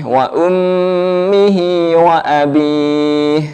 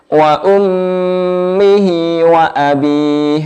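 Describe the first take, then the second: The two takes are said the same way.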